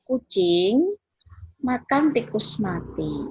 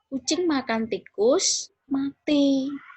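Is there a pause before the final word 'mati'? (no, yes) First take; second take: no; yes. First: No pause comes before the final word. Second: A pause comes before the final word. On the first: A cat is eating a dead mouse. "makna kalimat itu adalah ada kucing yang sedang makan tikus mati" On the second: After the cat ate the mouse, both animals died. "Setelah kucing itu memakan tikus, mati"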